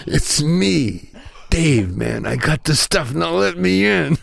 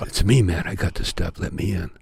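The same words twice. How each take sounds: First: Raised, mock-irritated voice, slowing at the end; a little angrier. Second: Said in the usual way. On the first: Cheech, locked outside, demands entry, acted a little angrier. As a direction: act out growing impatience to be let in. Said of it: "This time he's a little angrier". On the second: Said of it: "And he goes".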